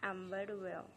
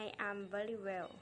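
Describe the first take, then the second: First: I and am are joined into one syllable. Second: I and am are said as separate words.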